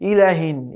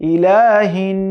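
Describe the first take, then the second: First: The vowel after the l is short. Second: The vowel after the l is lengthened. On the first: The speaker calls it wrong. "আবার অনেকে বলে থাকে ইলাহিন, ইলাহিনও বলা যাবে না।" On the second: The speaker calls it right. "লামে কিন্তু এখানে একালি পরিমাণ মাদ আছে, টান আছে।"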